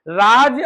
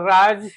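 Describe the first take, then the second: First: The word ends with a j sound. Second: The word ends with a z sound. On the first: It means rule or governance. "अगर सीधा बोलते हैं तो शासन" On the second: It means a secret. "ऐसे बोलेंगे फारसी की तरह ज"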